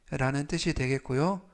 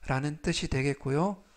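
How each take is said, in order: Both takes have the same delivery.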